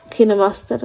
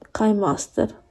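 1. La prima sillaba suona come 'kee'. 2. La prima sillaba suona come 'kai'. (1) "non si dice KineMaster" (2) "ma KaiMaster"

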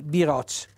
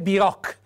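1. La consonante finale è un suono ch dolce. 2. La consonante finale è un suono k duro. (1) "devo pronunciarlo con la C dolce, quindi biroc" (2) "non è biroc"

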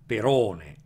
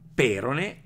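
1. È accentata alla greca. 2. È accentata alla latina. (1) "alla greca"

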